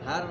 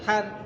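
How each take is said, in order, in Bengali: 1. h ধ্বনিটি একটি জোরালো, শ্বাসযুক্ত গলার ধ্বনি। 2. h ধ্বনিটি একটি সাধারণ, হালকা ধ্বনি। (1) "হার বলতো" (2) "না হার"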